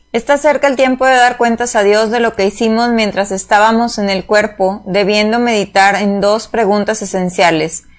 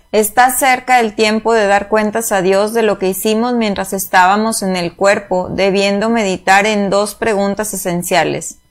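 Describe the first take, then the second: Both takes have the same delivery.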